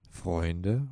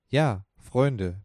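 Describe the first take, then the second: First: "Freunde?" asked with a rising tune; a tentative "Freunde?" with the pitch going up; questioning. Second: A firm "Ja" followed by a closed, falling "Freunde"; confirming. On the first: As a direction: lift the end of "Freunde" as a hesitant guess. Interrupts, guessing the word. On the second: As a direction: stress on "Ja", then "Freunde" falling firmly. Confirms the guessed word. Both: Acted.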